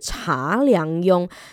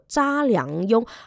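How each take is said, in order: First: The name begins with a ch sound. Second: The name begins with a zh sound. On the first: The speaker calls it wrong. "而不是查良镛" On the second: The speaker calls it right. "他的原名呢其实叫做查良镛"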